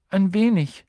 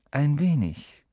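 First: Put-on high, timid girl's reply; shy. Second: Musing echo with a falling sigh. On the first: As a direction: answer shyly in a raised, girlish voice. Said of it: "sagte Hermine schüchtern". (schüchtern, mit hoher Stimme) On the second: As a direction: echo it back pensively, letting it fall. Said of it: "seufzte Ronan". (nachdenklich seufzend wiederholt) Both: A narrator's reading.

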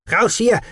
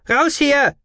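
First: High, loud panicked shout; hysterical yell. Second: Even higher, loud panicked yell; hysterical scream. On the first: Marv yells to flee as robot takes aim, hysterical. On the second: Marv's second cry as robot takes aim, hysterical. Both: A narrator's reading. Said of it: "brüllte jemand in höchster Hysterie".

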